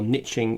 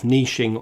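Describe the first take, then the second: First: The word is said the American way. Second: The word is said the non-American way.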